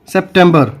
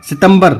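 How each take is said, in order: First: English "सितंबर", said sep-TEM-ber; English pronunciation. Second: Hindi "सितंबर", si-tam-bar without p; Hindi pronunciation. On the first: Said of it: "यहाँ पे कैसे बोलेंगे?". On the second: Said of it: "Hindi में बोलेंगे सितंबर". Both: Shown as a demonstration.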